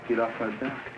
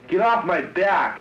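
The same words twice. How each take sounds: First: It is said softly, without force. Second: It is yelled loudly.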